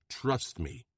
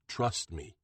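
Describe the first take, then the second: First: Firm, commanding restatement; thundering command. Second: Low, steady reassurance; assuring. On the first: Bronco silencing Lena, a hint of thunder. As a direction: lay down the law. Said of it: "Bronco thunders". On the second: Bronco calming Lena about the hospital, low and assuring. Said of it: "Bronco assures her". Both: A narrator's reading.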